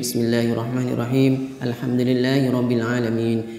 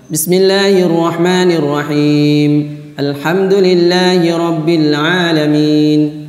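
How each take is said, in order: First: It is recited softly and quietly. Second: It is recited fairly loudly.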